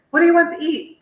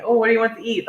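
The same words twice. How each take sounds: First: Much higher-pitched quoted question; high, hammed-up asking for a decision; acted dinner question. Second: Said in the usual way. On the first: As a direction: ask it in a high put-on voice. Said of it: "guy's thing when they ask the woman". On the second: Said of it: "Somebody asks me".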